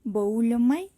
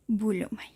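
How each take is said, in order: First: "boulomai" with o and u both sounded; diphthong read apart. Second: "bulomai" with a single Spanish u for ou. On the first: Teacher showing Greek students the wrong reading, split diphthong. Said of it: "no vamos a leer". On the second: Teacher showing students the correct reading, ou as plain U. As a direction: say "bulomai", one pure u in the first syllable. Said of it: "lo vamos a pronunciar como nuestra U". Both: Shown as a demonstration.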